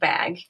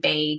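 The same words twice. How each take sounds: First: It is said with a general accent. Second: It is said with a North Dakota accent.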